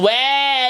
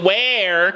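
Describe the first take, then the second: First: The final R sound is dropped. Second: The final R sound is clearly pronounced. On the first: "She had no R phoneme in her sound" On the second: "it wasn't where"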